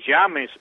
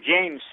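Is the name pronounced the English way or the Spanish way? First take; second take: Spanish; English. First: The name is pronounced with Spanish sounds. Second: The name is pronounced with English sounds.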